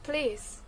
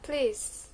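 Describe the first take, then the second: First: The first vowel is dropped, one syllable remains. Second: The first vowel is dropped, one syllable remains.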